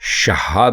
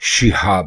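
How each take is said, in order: First: The first syllable has an 'a' vowel. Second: The first syllable has an 'i' vowel. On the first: The speaker calls it wrong. "दुरुस्त लफ्ज़ शहाब नहीं" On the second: The speaker calls it right. "बल्कि शिहाब है"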